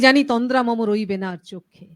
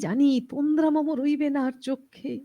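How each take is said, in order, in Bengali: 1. এটি জোরালো, দৃঢ় কণ্ঠে আবৃত্তি করা হচ্ছে। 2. এটি নরম, কোমল কণ্ঠে আবৃত্তি করা হচ্ছে। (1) "অনেক দরাজি গলা আরকি, রেওয়াজি গলা।" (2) "যিনি খুব আস্তে, আস্তে কথা বলেন"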